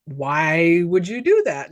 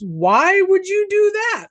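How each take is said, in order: First: Low, drawn-out questioning; slow retold question. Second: High, drawn-out, incredulous retold question; mock appalled. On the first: Joe questions the woman, slow and low. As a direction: quote him slowly and low, stretching the question. Retells Joe's question again, lower. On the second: Joe reacts to talk of suicide, mock appalled. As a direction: imitate someone aghast, stretching it out high. Retelling Joe's shocked reaction.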